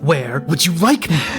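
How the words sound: The line sounds openly and overtly threatening.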